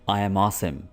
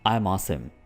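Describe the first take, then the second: First: The word "am" is said as a separate word. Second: The word "am" is contracted onto "I".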